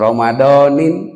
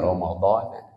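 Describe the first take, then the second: First: The word ends with an added -in sound. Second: The word ends with no added -un or -in. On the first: The speaker calls it wrong. "Mual di aos Ramadanan mual atau Ramadanin" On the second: The speaker calls it right. "para ulama menulisnya Ramadan"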